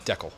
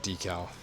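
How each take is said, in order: First: It is said the way Canadians say it. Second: It is said in the speaker's usual American way.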